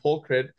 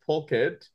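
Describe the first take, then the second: First: It is said with an r after the k. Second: It is said without an r after the k. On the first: The speaker calls it wrong. "He kept adding a silent R and it became pulkrit" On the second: The speaker calls it right. "could not pronounce pulkit"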